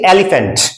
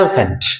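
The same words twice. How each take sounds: First: The middle vowel is fully pronounced. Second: The middle vowel is almost silent. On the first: The speaker calls it wrong. "न कि एलिफेंट" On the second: The speaker calls it right. "इस word को पढ़ा जाता है एलिफेंट ... इसमें ई है वो ऑलमोस्ट म्यूट है"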